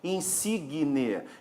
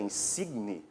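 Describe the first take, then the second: First: It is said with an extra vowel sound inside. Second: It is said with no extra vowel sound inside. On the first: This is the everyday colloquial pronunciation. "a gente vai acrescentar um som" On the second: This is the formal standard pronunciation. "que teríamos que dizer pela norma culta"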